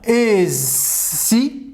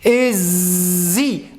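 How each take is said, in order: First: The middle consonant is a hissing s sound. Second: The middle consonant is a buzzing z sound. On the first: "بدلا أن يقول" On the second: "يقول إزي. نعم عندما S يخاف يفعل زز زز"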